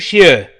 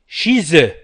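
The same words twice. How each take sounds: First: "chez eux" as shee-UH, without the z; no liaison. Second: "chez eux" as shee-ZUH, z sounded; liaison Z. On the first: Teacher showing what the rules reject, no liaison. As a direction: drop the linking z in chez eux. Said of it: "لا نقول chez eux". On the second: Teacher giving the form the rules require, liaison Z. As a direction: link chez eux with a clear z. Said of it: "بالنسبة للقواعد نقول". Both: Shown as a demonstration.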